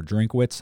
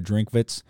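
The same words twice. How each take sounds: First: Drinkwitz with an English W, "Drink-wits"; alternative pronunciation. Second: Drinkwitz with a V sound, "Drink-vits"; German-style pronunciation. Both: Shown as a demonstration. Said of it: "however you wanna pronounce it".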